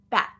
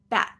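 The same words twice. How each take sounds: First: The vowel is cut off by a stop. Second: The same.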